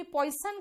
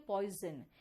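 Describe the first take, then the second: First: पॉइजन as POY-sun with a hissing s; wrong pronunciation. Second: पॉइजन as POY-zun with a buzzing z; correct pronunciation. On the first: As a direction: say पॉइजन with s in the middle. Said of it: "नहीं ना". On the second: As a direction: say पॉइजन with a voiced middle z. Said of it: "आप कहते हो पॉइजन". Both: Shown as a demonstration.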